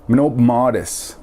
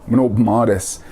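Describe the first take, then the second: Both takes have the same delivery.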